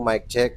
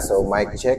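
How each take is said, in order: First: The voice sounds dry with no echo. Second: The voice has reverb and an echo. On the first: "noise reduction ito. One press" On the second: "meron siyang reverb or parang may echo"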